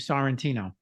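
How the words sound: It is said with an American accent.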